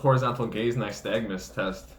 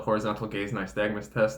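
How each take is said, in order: First: The phrase is said slowly and carefully. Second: The phrase is said at a normal pace.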